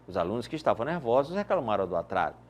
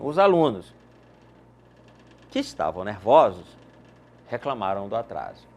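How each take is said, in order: First: The sentence flows without pauses around the clause. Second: Pauses set off the clause from the sentence. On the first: Only the students who were nervous complained. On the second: All the students were nervous and complained.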